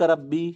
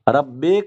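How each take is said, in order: First: The final vowel is an 'ee' sound. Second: The final vowel is an 'eh' sound. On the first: The speaker calls it right. "हमज़ा ज़ेर ई" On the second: The speaker calls it wrong. "रब्बे है जो न चयो बेटा"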